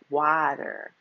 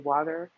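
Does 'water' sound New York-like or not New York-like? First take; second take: not New York; New York. First: It is said without a New York sound. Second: It is said faster, sounding more New York.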